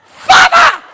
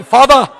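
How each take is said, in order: First: Very high, piercing mock shriek; shrill scream. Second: Said in the usual way. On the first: Shown as a demonstration. Showing how the Cajun prayed, a shrill exaggerated scream. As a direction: scream the word way up high, full blast. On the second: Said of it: "I don't mean father".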